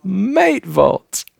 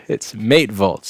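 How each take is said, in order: First: Higher-pitched mock Aussie; bad Australian accent. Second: Said in the usual way. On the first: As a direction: another go at faked Australian, pitched up. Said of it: "I can't do an Australian accent at all".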